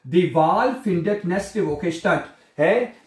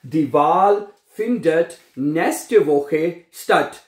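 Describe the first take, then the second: First: Said in the usual way. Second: Very slow, word by word; slow dictation. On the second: Shown as a demonstration. Teacher dictating the sentence to students. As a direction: dictate each word apart. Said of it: "statt, ठीक है".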